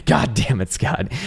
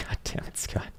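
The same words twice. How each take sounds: First: Said in the usual way. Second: Breathy whispered mock curse. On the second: Real, not acted. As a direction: hiss it under your breath. Reacts to viewer's chart.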